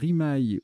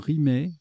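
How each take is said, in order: First: The word ends with an 'eye' sound. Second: The word ends with an 'eh' sound. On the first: "rimaille ou rimet" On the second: "ça se prononce aussi rimet"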